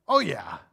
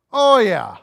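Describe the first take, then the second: First: Said in the usual way. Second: A louder, higher knowing oh yeah; punchy mock confession, oh pushed up; emphatic agreement. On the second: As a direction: lean into it like the whole room agrees. Answers own question twice.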